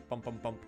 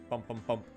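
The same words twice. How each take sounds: The two takes are said the same way.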